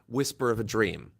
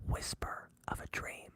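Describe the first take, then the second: First: It is spoken in a normal voice. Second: It is spoken in a whisper. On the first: Everyone can hear it. The speaker calls it wrong. "They kept saying it. They didn't whisper it" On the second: Only the right people hear it. The speaker calls it right. "I say"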